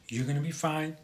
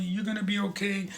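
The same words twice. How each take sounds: First: Soft, steady, matter-of-fact reassurance; calm firm goodbye. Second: Put-on coddle the child too much; mock coddling reassurance. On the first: Retold or imitated. Right way to leave daughter, soft calm reassurance. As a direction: reassure briefly and go. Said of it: "what I did was". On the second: Wrong way to leave daughter, high coddling reassurance. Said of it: "if I stood there for five minutes".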